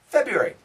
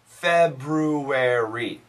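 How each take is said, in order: First: The word is said fast. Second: The word is said slowly. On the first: The speaker calls it right. "when you say it fast" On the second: The speaker calls it wrong.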